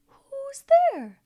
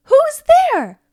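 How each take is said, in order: First: Echo. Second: Loud high shout into the dark; startled call. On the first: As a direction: echo it back from far away. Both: Acted. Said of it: "we have an echo in here".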